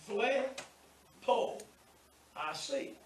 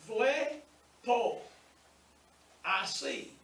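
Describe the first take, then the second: Both takes have the same delivery.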